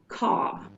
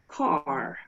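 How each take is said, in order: First: The final r sound is dropped. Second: The final r sound is clearly pronounced. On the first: "in Australia, they're going to pronounce it caw with no er sound" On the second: "This is a rhotic accent. We say that it's a rhotic accent because the R's are pronounced everywhere"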